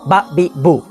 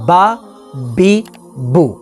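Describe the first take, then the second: First: The vowels are cut off with a jerk. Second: The vowels are said at normal length. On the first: The speaker calls it wrong. "ना ही झटका देंगे" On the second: The speaker calls it right. "बल्कि नॉर्मल"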